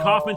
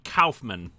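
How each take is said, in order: First: The name is pronounced the usual English way. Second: The name is pronounced the German way. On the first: The speaker calls it wrong. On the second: The speaker calls it right.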